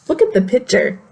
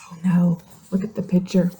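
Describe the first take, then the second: First: Said in the usual way. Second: Put-on whispered, soft aside to the kids; breathy worried whisper to young listeners; hushed aside. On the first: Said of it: "teacher points to the book". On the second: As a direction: drop to a whisper as if something's wrong. Teacher's hushed aside to children.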